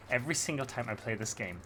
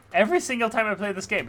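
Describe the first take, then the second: First: Said in the usual way. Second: Louder, fast, higher exasperated burst; fast loud exasperated repeat; exasperated outburst. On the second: Real, not acted. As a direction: blurt it out in disbelief. Exasperated at stuck climb.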